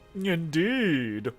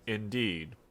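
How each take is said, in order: First: It is said in a light, unserious way. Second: It is said in a serious, grave way.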